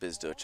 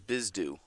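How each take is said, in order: First: The name ends with a 'ch' sound. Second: The name ends in a plain vowel sound. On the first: The speaker calls it wrong. "I know I was saying that wrong" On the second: The speaker calls it right. "and now I will pronounce that correctly"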